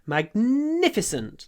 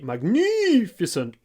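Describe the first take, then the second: First: The n consonant is stretched out long. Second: The stressed vowel is stretched out long. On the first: The speaker calls it right. "lots of n" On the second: The speaker calls it wrong. "The Russian way to stress a word would be magnificent. Eee, lots of vowel, but don't do that"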